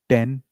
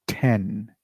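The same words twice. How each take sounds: First: It is said with a mother-tongue influenced accent. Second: It is said with an international standard accent. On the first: The speaker calls it wrong. "Many people say ten, simple ten, right? But it's incorrect" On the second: The speaker calls it right. "The correct version is ten. I repeat"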